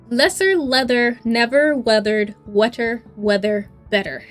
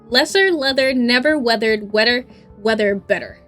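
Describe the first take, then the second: First: It is said at normal speed. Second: It is said more quickly.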